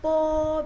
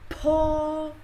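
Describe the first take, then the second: First: The p is released without a puff of air. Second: The p is released with a puff of air. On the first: "po di atas tadi po biasa aja" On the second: "ada anginnya ya... Seperti ini"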